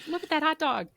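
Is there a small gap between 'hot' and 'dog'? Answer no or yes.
no. Hot and dog run together without a gap. It refers to a sausage in a bun. "you're really hungry"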